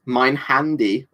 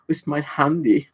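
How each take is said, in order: First: Said in the usual way. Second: Mein Handy said the German way, a touch higher; German-style mein Handy. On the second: Shown as a demonstration. Showing chat a funny German word, playful German pronunciation. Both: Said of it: "The German word that always makes me laugh".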